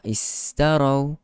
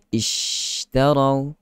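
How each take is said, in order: First: The consonant is a sharp s sound. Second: The consonant is a soft sh sound. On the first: The speaker calls it wrong. "Istarau jadi huruf sin" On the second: The speaker calls it right. "Kalau pertengahan lidah dia akan bunyi ishtarau"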